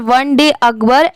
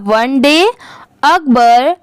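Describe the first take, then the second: First: The words run together without any pause. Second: There is a short pause after 'one day'. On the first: The speaker calls it wrong. "ऐसे नहीं पढ़ेंगे, साथ में जोड़ते चले जाएंगे, ऐसे नहीं" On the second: The speaker calls it right. "जहाँ पर कॉमा या फुल स्टॉप है वहाँ पर थोड़ा आप रुकिए"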